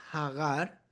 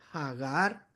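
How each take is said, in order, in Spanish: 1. El nombre empieza con una h aspirada, de aire hacia afuera. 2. El nombre empieza con una h aspirada, de aire hacia afuera.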